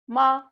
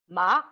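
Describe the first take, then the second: First: The pitch stays high and level. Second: The pitch rises from mid to high. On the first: "tone one is high level tone" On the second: "tone two is high rising"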